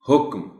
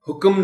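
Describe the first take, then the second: First: The k has no vowel after it. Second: The k has a vowel after it. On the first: The speaker calls it right. "जज़्म के तौर पर ही पढ़ा जाना चाहिए" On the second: The speaker calls it wrong. "हुक्म नहीं"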